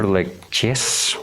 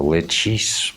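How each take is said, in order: First: "Leches" ending in a stressed CHESS; first pronunciation option. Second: "Lechis" ending in a long ee sound; alternative pronunciation. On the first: Card reader unsure of the demon's name, CHESS-ending pronunciation. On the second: Card reader offering another option, ees-ending pronunciation. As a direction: slowly say "Lechis" as LETCH-ees. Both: Shown as a demonstration. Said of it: "whichever way you want to pronounce it".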